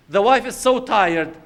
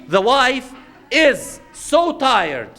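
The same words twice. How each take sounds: First: Said in the usual way. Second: Slow, high, stretched-out so tired; drawn-out tired. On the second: Shown as a demonstration. Preacher stretching the words to show the wife's exhaustion.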